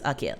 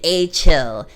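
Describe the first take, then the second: First: The middle consonant is a hard k sound. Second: The middle consonant is a ch sound. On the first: The speaker calls it right. "pronounced Akil" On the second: The speaker calls it wrong. "you have me saying it wrong this whole time"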